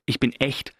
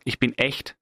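Both takes have the same delivery.

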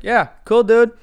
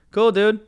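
First: Louder, higher, pointedly dismissive; asshole-ish. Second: Higher, mildly snide brush-off; kind of dickish. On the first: Passenger making sure the driver catches on, openly dickish. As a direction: lay the fake approval on thick, like an asshole. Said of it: "be kind of an asshole about this". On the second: Passenger answering the driver's company story, mildly dickish. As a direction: brush him off with a slightly dickish lift. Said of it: "kind of dickish". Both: Retold or imitated.

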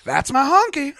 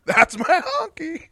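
First: Higher, louder triumphant announcement; proud catchphrase shout. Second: Much higher, slow, drawn-out "That's my honky"; slow high catchphrase. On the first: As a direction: claim your bag with a proud shout. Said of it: "That's how my catchphrase is gonna work". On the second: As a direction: stretch every word up high, laughing. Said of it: "That's gonna be my catchphrase". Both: Pretend.

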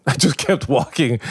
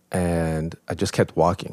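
First: Laughing and higher. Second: Said in the usual way. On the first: Real, not acted. Laughing as he retells his desert walk. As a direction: chuckle through the words. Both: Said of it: "Forrest Gump at Burning Man".

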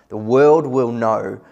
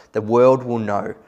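First: The world will know, slower and louder, every word leaned on; emphatic repeat. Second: Said in the usual way. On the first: Shown as a demonstration. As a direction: drive it home the second time.

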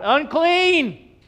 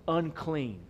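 First: High, loud town-crier call; acted warning shout. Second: Said in the usual way. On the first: Leper warning the townspeople, shouted. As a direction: shout it out to clear the street. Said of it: "they had to shout". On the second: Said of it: "let people know".

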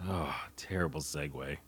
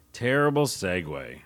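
First: Whispered under his breath. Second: Said in the usual way. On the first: Real, not acted. Podcaster mocking his own clumsy segue, whispering. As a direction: mutter it as a private aside.

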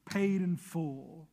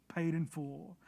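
First: "Paid in full" said slowly, leaning hard on "paid"; stamped slow. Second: "paid in full" echoed much softer, "paid" still leading. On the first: Preacher reading the stamp aloud, slow and weighty. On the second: Preacher echoing the stamp to himself, softly. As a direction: let "paid in full" fall away to a hush. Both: Shown as a demonstration. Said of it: "this word right here".

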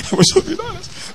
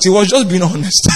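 First: Higher and softer, through a laugh; amused half-laughing retake; laughing repeat. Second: Said in the usual way. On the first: Shown as a demonstration. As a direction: let the laugh carry the words.

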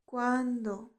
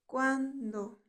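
The two takes are said the same way.

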